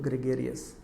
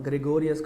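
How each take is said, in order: First: The middle vowel sounds like 'air'. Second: The middle vowel sounds like 'oh'. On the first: The speaker calls it right. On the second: The speaker calls it wrong. "గ్రెగోరియస్ కాదు"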